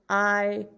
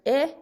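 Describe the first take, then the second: First: "I" said as a long eye; long I sound. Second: "I" said as a short ih; short I sound. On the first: Teacher sums up for the class, "I" as long eye. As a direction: isolate "I" as the vowel in kite. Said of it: "for the long". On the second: Teacher sums up for the class, "I" as short ih. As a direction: isolate "I" as the vowel in kit. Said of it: "for short". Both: Shown as a demonstration.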